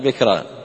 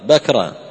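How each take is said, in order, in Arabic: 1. المقطع الأول فيه صائت غير 'a'. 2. المقطع الأول فيه صائت 'a' مفتوح. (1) "يعني ما تقول بكرا" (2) "بفتح الموحدة"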